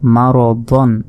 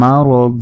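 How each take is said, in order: First: The word ends with an n sound. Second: The word ends with a drawn-out a vowel. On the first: The reading continues into the next word. "দদ দুই জবর দন" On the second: The reading stops at this word. "শেষের এই তানবিনের উচ্চারণ তখন আর হবে না, এখানে শুধু একটি মাত্র জবরের উচ্চারণ হবে।"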